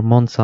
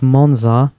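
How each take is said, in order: First: "Monza" with an s sound for the z; "Monza" with a hissed s in the middle; pronunciation variant. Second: "Monza" with a voiced z; "Monza" as MON-zah; pronunciation variant. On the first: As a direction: say "Monza" as MON-sah. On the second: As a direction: say "Monza" with a buzzing z in the middle. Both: Shown as a demonstration. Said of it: "I don't know how to pronounce this".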